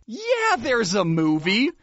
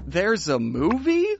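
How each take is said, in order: First: Imitating a "you're the dumb one" tone, "Yeah" pitched high; incredulous high "Yeah", as if to someone dumb; condescending certainty. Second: "There's a movie?" with a rise at the end; retold puzzled question on "There's a movie?". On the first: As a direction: say it like it's obvious, rising at the end. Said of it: "And the way he said, "Yeah, there's a movie," made it sound like I was the dumb one". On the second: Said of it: "So I just went".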